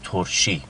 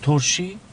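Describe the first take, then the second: First: ترشی said low with a falling end; settled statement. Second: ترشی pitched high with a rising end; surprised echo question. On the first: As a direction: state ترشی as a fact, dropping in pitch. Repeats the word, now accepting it. (گفتن «ترشی» با لحن خبری و افتان) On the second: Repeats an unexpected word as question. (تکرار «ترشی» با تعجب و لحن پرسشی) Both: Acted.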